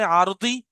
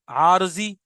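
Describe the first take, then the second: First: The middle consonant sounds like d. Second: The middle consonant sounds like z. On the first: "आरजी मत बोले ना, बोले आरती।" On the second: "अब वो आरजी बोलते हैं।"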